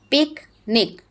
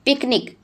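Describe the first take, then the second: First: picnic split as pic, pause, nic; broken into syllables. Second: Said in the usual way. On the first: Shown as a demonstration. Teacher dividing a word for pupils, picnic syllable by syllable as pic-nic. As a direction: say picnic in two separate beats, pic and nic. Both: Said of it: "break them in the syllables".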